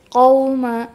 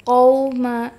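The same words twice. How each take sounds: Both takes have the same delivery.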